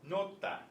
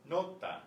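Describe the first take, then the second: Both takes have the same delivery.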